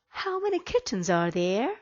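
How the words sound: The voice rises at the end. The speaker calls it right. "I need my voice to go up"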